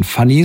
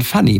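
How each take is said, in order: First: „Funny“ englisch gesprochen, mit dunklem, offenem Ö-artigem Vokal wie im englischen Wort; englisch ausgesprochen. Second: „Funny“ mit hellem deutschem A, also „Fanni“; mit A gesprochen. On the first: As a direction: sprich „Funny“ wie das englische Wort für lustig. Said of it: "nicht aus dem englischen Funny, sondern Funny mit A". („Funny“ auf Englisch, mit kurzem englischem U-Laut) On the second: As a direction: sprich „Funny“ mit klarem A statt U. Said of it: "aber mit A, nicht mit U". („Funny“ deutsch ausgesprochen, erster Vokal ein offenes A)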